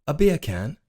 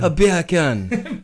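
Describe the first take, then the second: First: British accent, beer can with dropped r. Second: Slow, drawn-out British accent retry with a laugh; a second go at a British "A beer can", drawled. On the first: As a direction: say it like a Londoner. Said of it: "Say beer can in British". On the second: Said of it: "You just said bacon in a Jamaican accent". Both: Shown as a demonstration.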